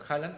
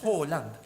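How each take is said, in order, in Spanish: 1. La primera vocal suena como una a. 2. La primera vocal suena como una o. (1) "si voy y le digo Holland acá me hacen bullying. Entonces, bueno, Haaland" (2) "se pronuncia como una O, entonces Holland"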